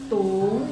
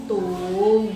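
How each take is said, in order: First: It is said with the second tone. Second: It is said with the third tone. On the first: "tung dua" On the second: "tung tiga"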